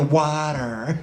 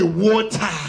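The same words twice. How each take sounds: First: It is said in an American accent. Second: It is said in the speaker's own foreign accent.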